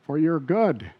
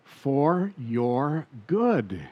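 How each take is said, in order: First: Said in the usual way. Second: Drawn out and softer, "For your good" stretched long; hushed, slow emphasis. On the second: Acted. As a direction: linger gently on each word. Preacher repeats key phrase slowly.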